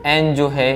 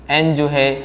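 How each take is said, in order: Both takes have the same delivery.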